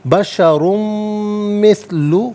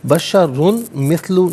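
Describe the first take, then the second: First: The n sound merges into the following m. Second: The n sound is pronounced clearly before m. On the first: The speaker calls it right. "यरमलून का कायदा अप्लाई होगा" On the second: The speaker calls it wrong. "नहीं"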